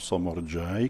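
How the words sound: The name is said with Italian pronunciation. The speaker calls it wrong. "così gli italiani dicono Somorjai, che io odio"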